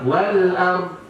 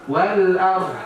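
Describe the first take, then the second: No difference in how they are said.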